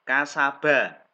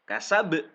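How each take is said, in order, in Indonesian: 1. Kata ini diakhiri dengan vokal pendek. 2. Konsonan akhir diakhiri dengan pantulan yang kuat. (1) "ba-nya harokat fathah" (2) "dibaca wakof kasab ... ini ba-nya tebal"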